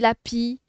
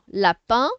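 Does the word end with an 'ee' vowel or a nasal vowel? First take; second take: ee vowel; nasal vowel. First: The word ends with a clear 'ee' vowel. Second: The word ends with a nasal vowel. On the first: The speaker calls it wrong. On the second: The speaker calls it right.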